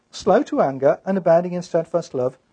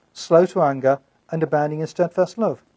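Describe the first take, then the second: No difference in how they are said.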